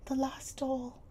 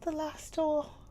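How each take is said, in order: First: Put-on high, sad little girl's voice; mournful. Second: Put-on higher, louder girl's voice; mournful. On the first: Sarah mourning her last doll, high and sad. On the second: Sarah repeating it to Miss Minchin, mournful and high. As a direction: let the sorrow break through. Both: A narrator's reading. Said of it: "her little mournful voice had an odd sound".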